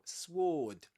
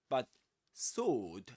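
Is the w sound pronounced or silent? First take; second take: pronounced; silent. First: The w sound is pronounced. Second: The w sound is silent. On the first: The speaker calls it wrong. "you don't say" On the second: The speaker calls it right. "You don't pronounce the w"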